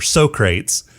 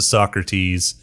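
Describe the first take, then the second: First: The name is said the film characters' way. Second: The name is said in its usual way.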